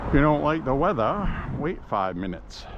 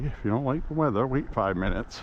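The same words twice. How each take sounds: First: It is said in a Maine accent. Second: It is said in a neutral accent.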